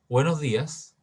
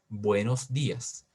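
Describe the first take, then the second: First: It is said quickly with loose articulation. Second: It is said slowly, marking every sound. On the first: The speaker calls it wrong. "si yo habitualmente digo" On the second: The speaker calls it right. "marcando cada sonido"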